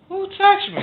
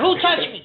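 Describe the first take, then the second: First: It is said in a peaceful, calm tone. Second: It is said in an angry tone.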